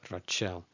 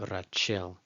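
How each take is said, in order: Both takes have the same delivery.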